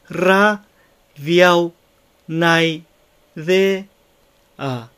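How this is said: Each syllable is said separately with pauses. The speaker calls it wrong. "音節一個一個をあえて離して発音すると"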